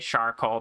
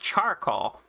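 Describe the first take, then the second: First: The word begins with an 'sh' sound. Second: The word begins with a 'ch' sound. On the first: It is a pun on the speaker's name. "I just say charcoal because it's a pun on my name" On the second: This is the usual way to say it. "it's charcoal, usually"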